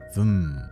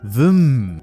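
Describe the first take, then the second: First: It is said short and understated. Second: It is said long and vigorously. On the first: The speaker calls it right. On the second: The speaker calls it wrong.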